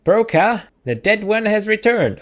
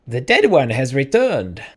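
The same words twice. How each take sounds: First: Put-on high-pitched old-lady call. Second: Put-on old-lady voice at the speaker's usual pitch; lightly voiced old lady announcing news; attempted old lady. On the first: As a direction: call your husband in a high old-woman voice. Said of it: "I was doing the old lady voice". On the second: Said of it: "I've lost the accent".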